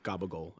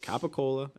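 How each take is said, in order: First: The word ends clipped, with the final vowel dropped. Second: The word ends with a full final vowel. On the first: The speaker calls it wrong. "Stop saying fucking galamad and stop saying gabagol" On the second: The speaker calls it right. "It's capicola"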